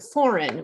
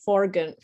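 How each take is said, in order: First: The G sound is silent in the word. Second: The G sound is pronounced in the word. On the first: The speaker calls it right. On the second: The speaker calls it wrong.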